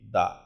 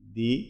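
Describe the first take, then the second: First: The vowel is a short 'uh' sound. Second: The vowel is a long 'ee' sound. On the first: The next word begins with a consonant sound. "Number two টিএইচই দা" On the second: The next word begins with a vowel sound. "Number one টিএইচই দি"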